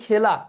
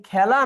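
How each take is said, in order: First: খেলা with close e, "khela"; close vowel. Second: খেলা with open æ, "khæla"; open vowel. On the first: Teacher offering the other choice for খেলা, close e vowel. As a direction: narrow the first vowel of খেলা to e. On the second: Teacher quizzing students on খেলা, open æ vowel. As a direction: widen the first vowel of খেলা to æ. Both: Shown as a demonstration. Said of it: "এটাকে বিবৃত উচ্চারণ বলে".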